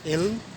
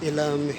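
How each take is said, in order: First: The l and m join with no vowel between. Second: A vowel is inserted between the l and m. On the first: The speaker calls it right. "आपने कहना है" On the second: The speaker calls it wrong. "ये सारे गलत हैं"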